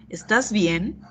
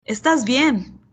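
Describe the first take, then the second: First: ¿Estás bien? asked with the voice rising at the end; rising question tune. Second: ¿Estás bien? said as a flat statement, falling at the end; falling statement tune. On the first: Teacher shows the question reading, rising at the end. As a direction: lift "bien" up as a real question. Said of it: "¿Qué es lo que cambia en ambas?". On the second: Teacher contrasts the two readings, this one falling. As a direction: say "¿Estás bien?" like a calm remark, voice dropping. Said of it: "Escuchen estas dos frases". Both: Shown as a demonstration.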